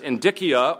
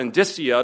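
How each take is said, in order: First: The C is pronounced hard, like a k. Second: The C is pronounced soft, like s or ch. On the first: "whether you pronounce the C hard" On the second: "or soft"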